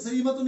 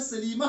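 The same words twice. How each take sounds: First: सलीमतुन with the -tun fully sounded; louder सलीमतुन, case ending kept; full -tun ending. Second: सलीमा closed with a breathed h; सलीमा as said at a stop; pausal h ending. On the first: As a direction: pronounce सलीमतुन through to its -tun. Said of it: "सलीमतुन नहीं पढ़ते". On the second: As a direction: drop the -tun, end सलीमा on -ah. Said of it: "सलीमा पढ़ते हैं". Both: Shown as a demonstration.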